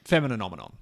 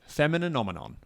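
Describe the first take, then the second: First: The word is said at a normal pace. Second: The word is said slowly and deliberately.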